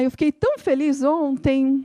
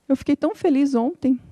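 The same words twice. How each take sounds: First: It is said with expressive, varied intonation. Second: It is said in a flat, monotone voice.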